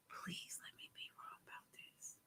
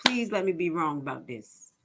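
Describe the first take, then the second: First: Barely audible, voiceless whisper; whispered plea. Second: Said in the usual way. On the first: Real, not acted. Host pleading to be wrong about the news, whispering. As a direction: whisper it like a private prayer.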